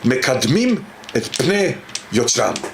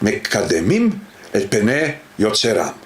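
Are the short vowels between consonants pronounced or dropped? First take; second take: dropped; pronounced. First: Short vowels between consonants are swallowed. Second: Short vowels between consonants are fully pronounced. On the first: "in Israeli Hebrew you would say"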